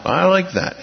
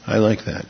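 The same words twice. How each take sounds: First: I like that pitched way up in delight; bright high exclamation of approval; exclaimed high. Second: Said in the usual way. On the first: Real, not acted.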